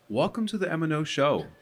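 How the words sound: It is said in a bright, upbeat tone.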